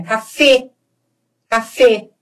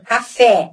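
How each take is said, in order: First: "café" ending in a closed e, near "ay" without glide; Spanish closed e. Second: "Café" ending in open é, as in "pet"; Portuguese open e. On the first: Teacher showing the Spanish way, closed final e. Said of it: "eu fecho". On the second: Teacher showing the Portuguese way, open final é. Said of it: "eu falo aberto". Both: Shown as a demonstration.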